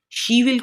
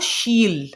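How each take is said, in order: First: It is said as two full words. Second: It is said as one contracted word.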